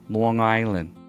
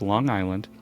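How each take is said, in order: First: It is said in an exaggerated local accent. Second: It is said in a plain, neutral accent.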